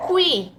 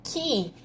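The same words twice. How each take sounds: First: "qui" said with the u sounded, like "kwee"; child's slip "qui", pronounced kwi; misread syllable. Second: "que" said as a plain "kee", u silent; corrected syllable "que", pronounced ki; expected reading. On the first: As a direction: misread "qui" as two gliding vowels, u then i. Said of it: "Não é qui". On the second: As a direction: say "que" like "ki", with no w glide. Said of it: "Não é qui, é". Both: Shown as a demonstration.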